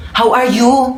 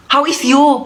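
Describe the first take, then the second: First: Said in the usual way. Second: "How is you?" said with "is" in place of "are"; mother's broken English. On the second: Shown as a demonstration. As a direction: say it the wrong way on purpose, "How is you?". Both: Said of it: "anong how is you".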